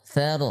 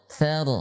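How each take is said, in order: Both takes have the same delivery.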